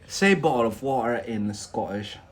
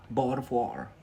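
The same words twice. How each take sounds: First: Said in the usual way. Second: Bottle of water with a Scottish glottal stop, "Bottle" as bo'le and "water" as wa'er; a quick Scottish take on "Bottle of water"; Scottish accent. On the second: Shown as a demonstration. A learner tries "Bottle of water" in a Scottish accent.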